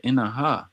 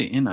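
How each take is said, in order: First: "innaha" with a clear ha on the end, rising; full form. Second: "inna" with no ha ending; short form. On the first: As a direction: add the ha syllable: "innaha". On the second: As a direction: clip it to "inna" and stop. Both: Shown as a demonstration. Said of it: "I didn't say inna".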